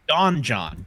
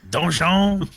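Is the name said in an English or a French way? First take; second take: English; French. First: It is said like two English words. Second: It is said as one French word. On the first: The speaker calls it wrong. "I mispronounced it" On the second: The speaker calls it right. "It's French for dungeon"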